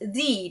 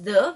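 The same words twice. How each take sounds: First: The vowel is long, like 'thee'. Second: The vowel is short, like 'thuh'. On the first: It comes before a word starting with a vowel. The speaker calls it right. "the here also is pronounced as the" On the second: It comes before a word starting with a consonant. The speaker calls it wrong. "not as the"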